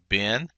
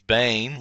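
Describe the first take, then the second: First: The vowel is a short 'e' sound. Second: The vowel is a long 'ei' sound. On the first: The word is joined to the following noun. "but when it is in construct, it ta- it reduces down to a seglet" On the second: The word stands on its own. "normally, Ben son is Bain with a uh, serif normally"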